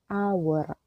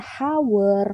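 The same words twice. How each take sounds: First: The word begins directly with a vowel sound. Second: The word begins with an audible h sound. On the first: The speaker calls it right. "melainkan hour" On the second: The speaker calls it wrong. "cara bacanya ini bukan hour"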